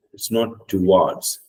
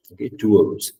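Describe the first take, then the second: First: Towards said slowly as two words, tu-wards; wrong towards demo. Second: Towards said as one smooth word; correct towards. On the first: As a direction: drag out the wrong split towards. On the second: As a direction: model the right towards, no split. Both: Shown as a demonstration.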